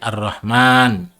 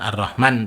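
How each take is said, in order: First: The vowel after the m is drawn out. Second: The vowel after the m is short. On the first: The speaker calls it right. "tapi Ar-Rahman ... mimnya panjang" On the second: The speaker calls it wrong. "bukan Ar-Rahman"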